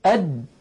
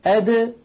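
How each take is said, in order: First: أد with the د held shut; wrong closed d. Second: أد with the د released in a bounce; qalqala d. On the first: Teacher shows the wrong unreleased د. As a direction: stop أد without release. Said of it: "بدل أن يقولوا". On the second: Teacher shows the correct bouncing د. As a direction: pop the د of أد open. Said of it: "في الدال يقولون أد". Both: Shown as a demonstration.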